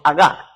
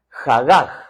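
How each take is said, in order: First: The h sounds are dropped and left silent. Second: The h sounds are pronounced as rough breaths. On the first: "algunos evitan la letra H que es muda" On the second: "Ahí en Guatemala diríamos jagaj"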